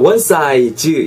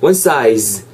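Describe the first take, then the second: First: Size is said Korean-style, ending in an extra vowel. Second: Size ends in a long buzzing z sound. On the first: The speaker calls it wrong. "이래 하지 마시고" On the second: The speaker calls it right. "그냥 one size"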